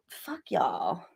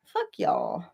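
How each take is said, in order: First: Breathy whispered curse. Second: Said in the usual way. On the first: Real, not acted. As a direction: hiss it under your breath. Muttered insult to chat.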